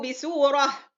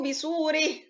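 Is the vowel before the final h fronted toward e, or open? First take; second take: open; fronted. First: The vowel before the final h stays open. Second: The vowel before the final h leans toward e. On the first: "أنا قدمت وجه الإيه؟ وجه الفتح" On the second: "وبعدين وجه الإيه؟ وجه الإمالة"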